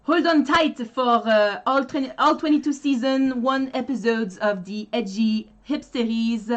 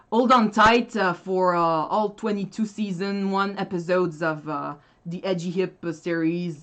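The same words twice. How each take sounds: First: English read with a Parisian French accent; French-from-France accent. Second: English read with a thick Québécois accent; true Quebec accent. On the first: Demonstrating how the French read English, French-from-France accent. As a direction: put on a France French accent, pitched up a touch. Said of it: "So French accent, they're gonna". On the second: Showing how a true Quebecker would sound, Québécois accent. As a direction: put on a Quebec French speaker's English. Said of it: "a true Quebec. I have heard someone speak like that". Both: Shown as a demonstration.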